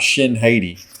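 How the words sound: The name is said with a Southern twang. The speaker calls it wrong.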